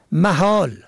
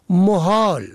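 First: محال said "mahal" with long final a; فتحه on first letter. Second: محال said "mohal"; ضمه on first letter. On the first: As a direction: say محال with a short a after m. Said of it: "به فتح اول". (محال با فتحهٔ میم: مَحال) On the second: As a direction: say محال with a short o after m. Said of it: "به ضم اول". (محال با ضمهٔ میم: مُحال) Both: Shown as a demonstration.

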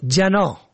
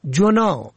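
First: جناح with "a" after the ج, "janoh"; first vowel fatha. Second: جنا with a rounded vowel after the ج, "junoh"; rounded short vowel opening جنا; first vowel damma. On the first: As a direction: say جناح as ja-NOH. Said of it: "به فتح اول". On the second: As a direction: say جنا as ju-NOH. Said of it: "گناه". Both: Shown as a demonstration.

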